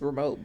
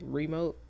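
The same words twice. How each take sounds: First: The word is squeezed into about one syllable. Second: The word is said with two full syllables. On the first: "it sound like one syllable" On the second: "instead of remote"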